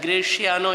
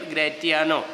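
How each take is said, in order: First: The middle consonant is an 's'-like sound. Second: The middle consonant is a 't' sound. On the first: This is the usual way to say the name. "Graciano is the normal pronunciation" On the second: Some versions of the play use this form. "some places you will hear Gratiano"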